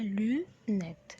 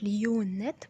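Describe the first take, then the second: First: لونات said as French lunettes, lu-net; correct pronunciation. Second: ليونات said wrongly with a y glide, lee-yoo-nat; wrong pronunciation shown. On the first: Teacher modelling the right لونات. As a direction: model لونات clearly with a rounded u. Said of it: "بنقولها لونات". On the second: Teacher showing learners the wrong ليونات. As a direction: demonstrate the mistaken ليونات with the glide. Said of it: "ما بنقولهاش ليونات". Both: Shown as a demonstration.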